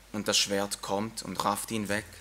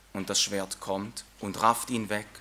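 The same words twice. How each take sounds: The two takes are said the same way.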